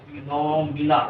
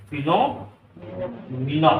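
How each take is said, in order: First: Said in the usual way. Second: फिनोमिना said very slowly, each syllable stretched, rising at the end; drawn-out pronunciation. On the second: Shown as a demonstration. Teacher showing students how to say फिनोमिना, very slow. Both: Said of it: "अंग्रेजी अजीब चीज है ना, तो फिनोमिना बोलते हैं".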